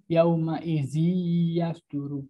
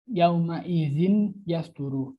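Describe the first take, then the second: First: The n sound merges into the following y. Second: The n sound is clearly pronounced before y. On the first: The speaker calls it right. "tapi yauma izi yasduru" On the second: The speaker calls it wrong. "bukan yauma izin yasduru, bukan gitu"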